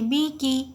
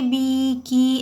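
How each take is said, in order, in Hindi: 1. स्वर छोटे और जल्दी बोले जाते हैं। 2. स्वर लंबे खींचे जाते हैं। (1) "जल्द पढ़ना है" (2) "बी की ऐसे नहीं खींचेंगे"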